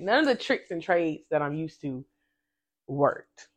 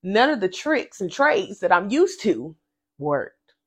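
First: Softer, hushed echo of the line; quiet spirit-voice repeat; inner voice. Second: Said in the usual way. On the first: Shown as a demonstration. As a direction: say it like a voice heard within. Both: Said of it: "I just heard that in my spirit".

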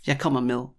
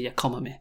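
First: "med" sounding like "mil"; med with soft D. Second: "med" clipped of its final D. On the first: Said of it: "I would say". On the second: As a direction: leave the D off "med", like "me". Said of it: "sounds a bit weird to me to say". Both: Shown as a demonstration.

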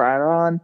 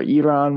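First: "Iran" in a first, mistaken pronunciation; mispronounced Iran. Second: "Iran" offered as an alternative pronunciation; corrected Iran. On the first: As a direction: say "Iran" the mistaken way, before self-correcting. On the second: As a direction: say "Iran" the other way, as a self-correction. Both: Real, not acted. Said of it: "Sorry for the mispronunciation".

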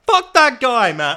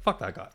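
First: High, loud blast of a curse; angry outburst. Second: Said in the usual way. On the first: Real, not acted. Cursing the guy to listeners, high and loud. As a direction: let it burst out, much louder.

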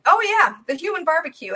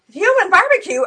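First: Lightly mocking, lifted pitch; making light of it. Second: Loud, high, incredulous repeat; indignant echo. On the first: Satanist brushes off a warning about hell, making light of it. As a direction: toss it off as a joke. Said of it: "he was making light of it". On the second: Retold or imitated. Woman challenges the Satanist's joke about hell, indignant. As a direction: throw the joke back in outrage. Retold appalled retort to his joke.

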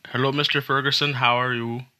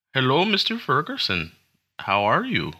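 First: Put-on higher-pitched Central Asian accent; tentative first try at a Central Asian call-centre accent. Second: Put-on second go at a caller's Central Asian accent, starting high. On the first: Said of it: "like, imitate an accent". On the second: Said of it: "That was a really bad it".

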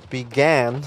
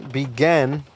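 The two takes are said the same way.

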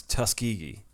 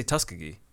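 First: Tuskegee said as tus-KEE-gee; standard pronunciation. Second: Tuskegee said as TUS-kuh-gee; habitual mispronunciation. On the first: Co-host attempting the town's name, Tuskegee as tus-KEE-gee. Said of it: "I do not know how to pronounce". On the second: Co-host admitting their habit, Tuskegee as TUS-kuh-gee. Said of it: "I say Tuskegee. I can't help it". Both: Shown as a demonstration.

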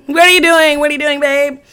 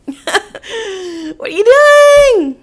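First: Exasperated questioning. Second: Very high, drawn-out wail of disbelief; exasperated wail. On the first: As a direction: repeat it insistently, less hysterical. Repeats the question to boyfriend. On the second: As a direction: stretch out "doing" high and loud. Retells confronting boyfriend, looking at him. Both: Retold or imitated.

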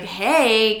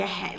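First: Imitating a snide hey; not that nice. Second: Said in the usual way. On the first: Father arriving to daughter, mock snide greeting. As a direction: say hey like you're trying to needle. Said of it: "not that nice. He's trying to be an asshole". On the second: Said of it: "like, not that nice".

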